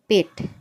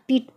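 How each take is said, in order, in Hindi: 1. यह स्वर छोटा 'e' उच्चारण है। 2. यह स्वर लंबा 'ee' उच्चारण है। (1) "इसको हम पढ़ेंगे पेट" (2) "पीठ पढ़ेंगे तो ये गलत होगा"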